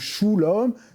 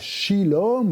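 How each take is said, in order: First: The first vowel is a u sound. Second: The first vowel is an i sound. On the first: "ou shulom" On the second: "C'est pas shilom"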